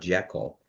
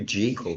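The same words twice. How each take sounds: First: The first syllable sounds like 'jeck'. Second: The first syllable sounds like 'jee'. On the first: The speaker calls it wrong. "not Jekyll" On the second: The speaker calls it right. "it's really pronounced Doctor G colon"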